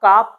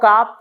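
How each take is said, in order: No difference in how they are said.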